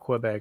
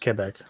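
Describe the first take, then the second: First: It is pronounced with an English pronunciation. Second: It is pronounced with a French pronunciation. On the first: "call it Quebec in English" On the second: "in French it's Quebec"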